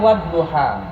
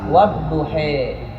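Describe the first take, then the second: First: The final vowel is an open a sound. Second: The final vowel is tilted toward an e sound. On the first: "Imam Hafaz membacanya wadduha" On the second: "tapi Imam Waras wadduhe"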